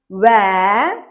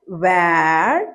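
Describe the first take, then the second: First: It is said with a British accent. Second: It is said with an American accent.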